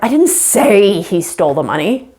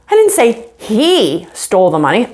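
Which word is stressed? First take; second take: say; he. First: The stress falls on the word say. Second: The stress falls on the word he. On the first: It was communicated another way, not spoken. "I didn't say it. Maybe I typed it down" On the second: Someone else took the money. "somebody stole the money, but it was someone else"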